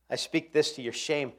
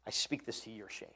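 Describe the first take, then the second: First: Said in the usual way. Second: Softly spoken, almost to himself; quiet, convicted repetition; hushed repeat. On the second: Shown as a demonstration. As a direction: let the verse drop down low and quiet. Repeats verse line quietly.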